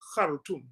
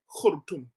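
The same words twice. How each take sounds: First: The first vowel is an 'a' sound. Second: The first vowel is a 'u' sound. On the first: This is the modern pronunciation of the capital. "they pronounce it with an A" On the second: This is the pronunciation used in the Quran. "it is pronounced with a Dhamma"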